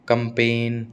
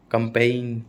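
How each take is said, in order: Both takes have the same delivery.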